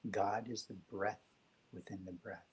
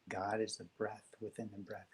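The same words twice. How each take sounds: First: Slow, soft, reverent reading of God is the breath within the breath; slow reverent quote. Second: Said in the usual way. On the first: Shown as a demonstration. Host sharing a favorite quote, slow and reverent. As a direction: savor "God" and "breath" slowly.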